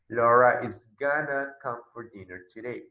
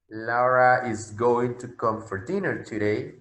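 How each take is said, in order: First: Going to is reduced to one word, gonna. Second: Going to is said in full, two words. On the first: This suits casual, informal speech. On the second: This suits formal or careful speech.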